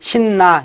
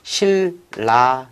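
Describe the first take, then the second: First: The middle consonant sounds like n. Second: The middle consonant sounds like l. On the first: The speaker calls it wrong. "신나 이렇게 읽습니까? 아니죠" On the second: The speaker calls it right. "실라 읽어서 리을 리을"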